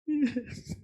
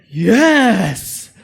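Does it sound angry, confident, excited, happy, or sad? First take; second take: sad; confident. First: It is said in a sad tone. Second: It is said in a confident tone.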